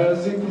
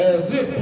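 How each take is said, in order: Both takes have the same delivery.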